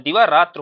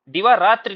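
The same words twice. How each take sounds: First: दिवारात्र ending in tra; correct form दिवारात्र. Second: दिवारात्रि ending in tri; wrong form दिवारात्रि. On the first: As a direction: end दिवारात्र without the i. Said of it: "दिवारात्र होता है ना शुद्ध शब्द". (दिवारात्र, अंत में इ के बिना) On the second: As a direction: end दिवारात्रि on an i vowel. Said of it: "दिवारात्रि नहीं होता है". (दिवारात्रि, अंत में इ के साथ) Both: Shown as a demonstration.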